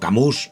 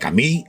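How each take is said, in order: First: The name is said with a Spanish-style pronunciation. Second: The name is said with a French-style pronunciation. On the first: This is how the speaker himself says it. "yo le digo Camus" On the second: This is how some other people say it. "hay quien lo dice Camille"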